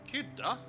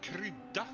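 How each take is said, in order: First: The R sound is dropped from the word. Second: The R sound is clearly pronounced in the word. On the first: This imitates the local dialect. "there I was asked if I wanted krydda on my fries" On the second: This is the standard form. "Du menar krydda?"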